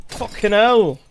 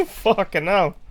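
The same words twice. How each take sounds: First: Higher, louder British curse; British accent. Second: Slow startled curse through a laugh; laughing exclamation. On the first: Retold or imitated. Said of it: "the more you hop around Britain". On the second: Real, not acted. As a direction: blurt it out laughing. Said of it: "The way you said "fucking hell".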